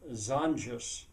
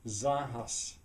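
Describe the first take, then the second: First: The word is pronounced with English sounds. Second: The word is pronounced with Spanish sounds. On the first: "I pronounce it in an English way" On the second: "In Spanish, it would actually probably be"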